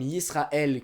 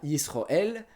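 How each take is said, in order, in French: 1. La voyelle du milieu est un son 'a'. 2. La voyelle du milieu est un son 'o'. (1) "certains sons A en séfarade" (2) "qui deviennent des O en ashkénaze"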